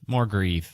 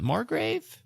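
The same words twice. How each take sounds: First: "Margreve" settled, GREVE rhyming with sleeve; alternate pronunciation. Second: "Margrave" as a question, GRAVE rhyming with brave; alternate pronunciation. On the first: Host trying the book title, "Margreve" said with a long EE, falling. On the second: Host unsure of the book title, "Margrave" said questioningly with a long A. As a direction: say "Margrave" with a long A in the second syllable, rising. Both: Shown as a demonstration. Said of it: "how you pronounce it".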